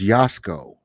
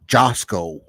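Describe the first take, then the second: First: The name begins with a Y sound. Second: The name begins with a J sound. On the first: This is how the name is actually said. The speaker calls it right. "but it's Yasko" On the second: This is how viewers mistakenly say it. The speaker calls it wrong. "they think his name is Josco"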